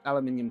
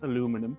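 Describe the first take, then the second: First: It is said the British way, five syllables. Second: It is said the American way, four syllables.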